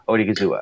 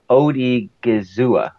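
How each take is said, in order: First: Said in the usual way. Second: Slow, syllable by syllable; staccato. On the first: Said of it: "Does that sound right?". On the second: Shown as a demonstration. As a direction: break the name into syllables. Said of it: "I can do it if I do it syllable by syllable".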